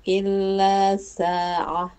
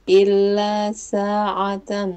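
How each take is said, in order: Both takes have the same delivery.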